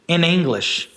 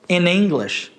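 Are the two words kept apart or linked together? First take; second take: linked; linked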